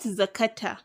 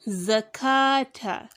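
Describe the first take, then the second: First: The vowel after k is kept short. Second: The vowel after k is held long. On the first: The speaker calls it wrong. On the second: The speaker calls it right.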